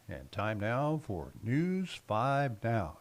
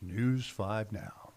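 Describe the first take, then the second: First: Slow, booming announcer delivery. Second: Slow drawn-out station ID; lightly hammed-up announcer read. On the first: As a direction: stretch it out like a TV announcer. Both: Shown as a demonstration. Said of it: "I did that in my best announcer voice".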